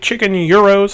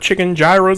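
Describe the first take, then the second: First: Gyros is pronounced the original Greek way. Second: Gyros is pronounced the common American way. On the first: This is the proper pronunciation. The speaker calls it right. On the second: This is how people in the States say it. The speaker calls it wrong.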